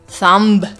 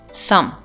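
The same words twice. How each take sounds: First: A b sound is pronounced at the end. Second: No b sound is pronounced at the end. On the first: The speaker calls it wrong. "So I'm not saying thumb" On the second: The speaker calls it right. "I'm saying thumb"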